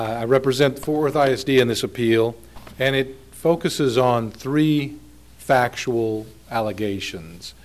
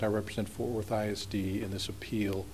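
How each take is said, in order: First: Raised, clearly audible speaking volume; talking louder. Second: Real soft, low-volume courtroom introduction; too quiet to hear. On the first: Lawyer repeating his introduction for hard-of-hearing judges, speaking up. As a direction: speak up so the bench can hear. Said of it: "I'll try to talk louder then". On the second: Lawyer introducing his client to appeal judges, too quietly. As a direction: speak too softly for the bench to hear. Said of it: "You have to talk louder". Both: Real, not acted.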